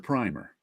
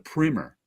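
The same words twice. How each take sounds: First: It is said with the paint word's vowel. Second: It is said with the book word's vowel. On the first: It refers to a paint undercoat. "If it's a paint, it's a primer" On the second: It refers to an instructional book. "if it's a book, it's a primer"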